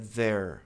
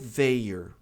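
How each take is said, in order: First: It is said as one syllable, like there. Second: It is said with two separate vowel sounds. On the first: The speaker calls it right. "É there" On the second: The speaker calls it wrong. "Essa pronúncia não existe"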